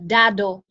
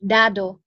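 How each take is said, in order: The two takes are said the same way.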